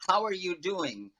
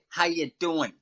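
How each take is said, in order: First: Every word is said, including the word 'are'. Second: The word 'are' is dropped and the rest is run together.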